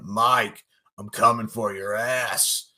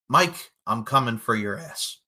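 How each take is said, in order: First: It is said in a suggestive, flirtatious tone. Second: It is said in a plain, matter-of-fact tone. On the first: "he didn't actually say it like that. It was more like" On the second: "Moses Marquez said"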